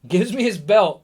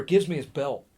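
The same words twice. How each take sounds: First: "Gives me his belt" higher and louder; emphatic repeat. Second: Said in the usual way. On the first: Real, not acted. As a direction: punch out "Gives me his belt" as the big reveal.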